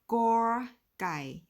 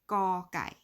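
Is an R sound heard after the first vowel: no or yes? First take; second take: yes; no. First: An r sound follows the first vowel. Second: No r sound follows the first vowel. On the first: The speaker calls it wrong. "so it's not" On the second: The speaker calls it right. "The R is silent, it is"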